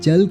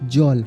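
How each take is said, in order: First: The first vowel sounds like 'a'. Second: The first vowel sounds like 'o'. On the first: This is the usual non-Bengali pronunciation. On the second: This is how Bengali pronounces it.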